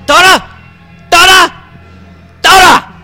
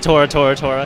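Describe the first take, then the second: First: It is said with excited emphasis. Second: It is said plainly, without emphasis.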